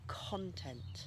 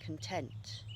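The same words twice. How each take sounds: First: The stress is on the first syllable. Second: The stress is on the second syllable. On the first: It is a noun. "here's a noun, ... it moves from the first syllable on the noun" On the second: It is an adjective. "Here's an adjective, ... to the second syllable on the adjective"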